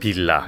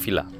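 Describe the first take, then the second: First: The word begins with a B sound. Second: The word begins with a V sound. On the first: The speaker calls it right. "Karena aksen Korea nggak ada V" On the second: The speaker calls it wrong. "Bukan villa"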